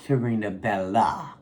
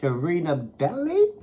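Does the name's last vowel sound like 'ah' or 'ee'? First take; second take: ah; ee. First: The name ends with an 'ah' sound. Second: The name ends with an 'ee' sound. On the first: The speaker calls it wrong. "not Sharina Bella" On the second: The speaker calls it right. "you pronounce that Belly"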